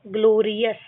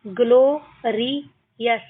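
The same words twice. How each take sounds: First: Said in the usual way. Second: ग्लोरियस split into ग्लो, रि, यस; syllable by syllable. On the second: Shown as a demonstration. Teacher shows learners how to read, ग्लोरियस in separate syllables. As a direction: pause between the parts of ग्लोरियस. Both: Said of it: "इस तरीके से हमको इनको पढ़ना है".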